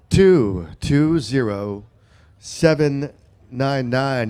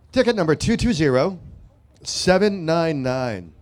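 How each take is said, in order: First: Each digit drawn out; slow deliberate repeat. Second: Slow number call. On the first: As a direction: spell out the number slowly. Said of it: "repeat of the number". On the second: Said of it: "repeats number slowly". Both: Shown as a demonstration.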